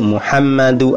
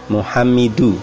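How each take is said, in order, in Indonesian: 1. Vokal setelah m ganda adalah a. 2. Vokal setelah m ganda adalah i. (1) "yang betul" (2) "di situ ejanya keliru ya"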